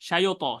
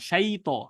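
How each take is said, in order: First: An extra vowel comes between 'shay' and 't'. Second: No extra vowel comes between 'shay' and 't'. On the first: The speaker calls it wrong. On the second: The speaker calls it right.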